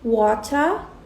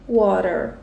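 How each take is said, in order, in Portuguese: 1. Ela é pronunciada com sotaque britânico. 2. Ela é pronunciada com sotaque americano. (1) "os britânicos as pronunciam de forma diferente... a gente não entende water" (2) "entende water"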